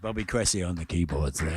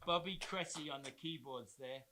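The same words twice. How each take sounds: First: It is said in a put-on radio announcer voice. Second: It is said in an ordinary speaking voice.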